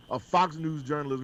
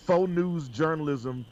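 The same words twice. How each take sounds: First: Said in the usual way. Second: "Faux" said as foe, like the French word, slowly; reading it as spelled. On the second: Shown as a demonstration. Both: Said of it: "he spelled it as faux news".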